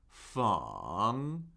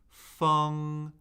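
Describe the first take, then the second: First: The pitch dips low, then rises. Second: The pitch stays high and level.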